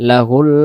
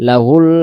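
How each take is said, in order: The two takes are said the same way.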